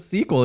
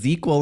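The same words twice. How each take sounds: First: The word begins with a hissing s sound. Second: The word begins with a buzzing z sound.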